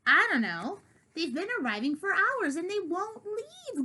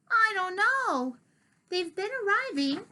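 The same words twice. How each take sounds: First: Louder growled complaint; growling. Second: Put-on gruff old cat. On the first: Acted. Diggory growling about the visiting cats, louder. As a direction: growl it, higher on hours. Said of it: "growled Diggory". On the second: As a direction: growl it out as old Diggory. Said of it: "So Diggory says".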